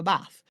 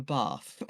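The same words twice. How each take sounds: First: "bath" with a short flat "a", as in "cat"; northern bath vowel. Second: "bath" with a long "ah", as "bahth"; corrected southern vowel. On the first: Grandchildren asking granny, "bath" with a short northern "a". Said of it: "like, the northern bath sound". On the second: Grandmother correcting grandchildren, "bath" with a long southern "ah". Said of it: "criticised us over". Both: Retold or imitated.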